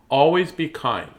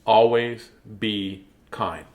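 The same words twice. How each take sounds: First: Said in the usual way. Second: "Always be kind" slow, a pause after each word; word-by-word motto. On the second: Shown as a demonstration. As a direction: spell out "Always be kind" one deliberate word at a time. Spells out the A B K motto.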